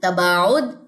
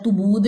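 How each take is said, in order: First: The first vowel is an open 'a' sound. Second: The first vowel is a rounded 'u' sound. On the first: The speaker calls it right. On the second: The speaker calls it wrong.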